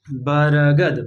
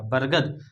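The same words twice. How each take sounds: First: बरगद said slowly as बा-र-गद, the र sounded out; teacher drags out बरगद so the र is heard; slow syllable demo. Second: बरगद said quickly as बर्गद, the र barely there; quick everyday बरगद with a clipped र; natural pronunciation. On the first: Teacher showing students the र in बरगद, slowly drawn out. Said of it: "र का उच्चारण जो है मात्र थोड़ा सा किया मैंने". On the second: Teacher gives students the natural बरगद, brisk. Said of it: "बरगद नहीं पढ़ा मैंने, बरगद पढ़ा". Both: Shown as a demonstration.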